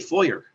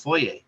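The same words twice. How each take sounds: First: Foyer is given an American-style pronunciation. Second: Foyer is given a Canadian-style pronunciation. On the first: "they say foyer instead of" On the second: "Canada we say foyer"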